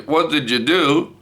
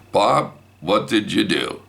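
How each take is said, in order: First: High-pitched accusing call; mock yelling. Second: Said in the usual way. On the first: Wife yelling down the hallway, high mock yell. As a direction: imitate a holler down the hall. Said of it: "Kathy's yelling down the hallway".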